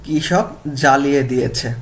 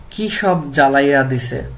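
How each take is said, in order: First: Said in the usual way. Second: Bengali village dialect, read louder as an example; regional dialect. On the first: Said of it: "প্রমিত রূপ হবে কি?". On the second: Shown as a demonstration. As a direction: present the regional Bengali dialect form clearly. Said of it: "গল্প থেকে আঞ্চলিক বাক্য দেখি".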